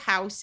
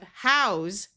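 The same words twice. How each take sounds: First: The word ends with a hissing S sound. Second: The word ends with a buzzing Z sound. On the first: It is a noun, a building to live in. "the word house with the unvoiced s sound" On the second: It is a verb meaning to provide shelter. "house with the z sound"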